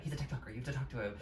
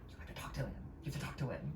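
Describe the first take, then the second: First: Softer retold urging, lightly voiced; imitated quiet aside. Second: Hushed aside, barely voiced; imitated whisper. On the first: Assistant explaining the TikToker to star, imitated quiet aside. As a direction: relay a discreet aside, soft but voiced. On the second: Assistant urging star to talk to TikToker, imitated whisper. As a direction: pretend to whisper discreetly to someone beside you. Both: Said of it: "whispering something to the assistant".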